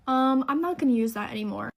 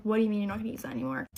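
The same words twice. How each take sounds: First: Hesitant "um", then a mildly agitated refusal; retold flustered refusal. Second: Rapid-fire disbelieving echo; retold incredulous question. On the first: Doctor suddenly backing out to the patient, retold flustered refusal. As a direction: lightly mimic a doctor backing out. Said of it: "all of a sudden starts freaking out". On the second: Patient questioning the doctor's sudden refusal, retold quick disbelief. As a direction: throw the refusal straight back, fast.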